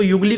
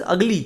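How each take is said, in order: First: युगली with a wrong "yu" at the start; mispronunciation demo. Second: Ugly opening on a short "uh"; correct pronunciation demo. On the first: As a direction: say ugly as "yugly", युगली. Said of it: "इसको युगली कोई नहीं पड़ेगा". (युगली, शुरू में गलत 'यू' लगाकर) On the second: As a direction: say ugly as "ug-lee", no y. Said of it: "अगली देखिए इसमें आवाज़ आ रही है". (ugly को 'अ' से शुरू करके, 'अगली') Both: Shown as a demonstration.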